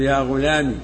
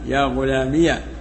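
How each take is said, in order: First: The word ends in a short i vowel. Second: The word ends in -iya with a final h. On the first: "بحذف الياء" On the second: "وفتحها"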